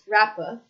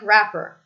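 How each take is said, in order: First: It ends with a weak schwa, no R. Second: It ends with an R sound. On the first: "British English would not" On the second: "I pronounce the R"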